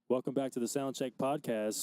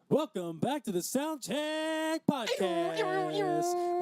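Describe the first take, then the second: First: It is said flatly, without much energy. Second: It is said excitedly, with more energy.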